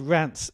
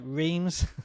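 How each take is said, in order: First: The name is said the French way. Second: The name is read as it is spelled. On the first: The speaker calls it right. "but they're called Rants" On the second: The speaker calls it wrong. "It looks like Reims"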